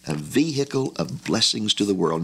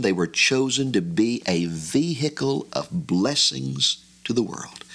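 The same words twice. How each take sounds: First: Said in the usual way. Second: Slow, with "vehicle" drawn out and leaned on; preacher's emphasis on "vehicle", slow and deliberate; stress on vehicle. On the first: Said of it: "I have emphasized the word there". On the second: Shown as a demonstration. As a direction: lean hard on "vehicle", slowing the whole phrase. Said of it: "I have emphasized the word there, vehicle".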